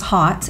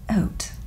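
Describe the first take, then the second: First: The word begins with an audible H sound. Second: The word begins with no H sound. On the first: The speaker calls it wrong. "I thought it was hot at one point" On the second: The speaker calls it right. "they don't pronounce the H, I guess, so it's called Haute"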